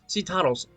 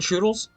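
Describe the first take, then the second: First: The name starts with a 'seh' sound. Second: The name starts with a 'choo' sound. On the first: The speaker calls it right. "I've been saying it wrong this whole entire time" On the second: The speaker calls it wrong. "am I saying Choodles? Why am I saying Choodles?"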